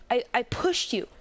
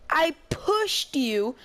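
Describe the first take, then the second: First: Said in the usual way. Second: Higher, louder, slow disbelieving protest; slow, pleading disbelief; slow incredulous. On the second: Retold or imitated. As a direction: stretch it out like it's absurd. Repeats the reply in disbelief.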